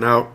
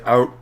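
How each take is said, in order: First: Said in the usual way. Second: Out said as a Canadian "oot"; Canadian-accented out with a rounded vowel. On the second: Shown as a demonstration. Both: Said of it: "in a very Canadian accent".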